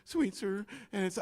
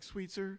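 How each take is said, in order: First: Panicked repeat. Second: Muttered street name, much softer; anxious under-the-breath read; panicked mumble. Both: Retold or imitated. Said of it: "and I'm panicked".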